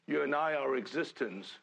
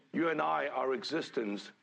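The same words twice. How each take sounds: The two takes are said the same way.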